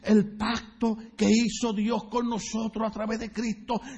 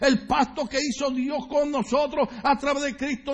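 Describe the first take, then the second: First: It is said more slowly. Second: It is said at a normal speed.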